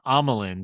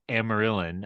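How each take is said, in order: First: The name sounds like Amilyn. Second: The name sounds like Amaryllis. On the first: "my mind kept going to uh Haldo ... is Amelin" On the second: "I even goof it up? ... the way you said you goofed it up"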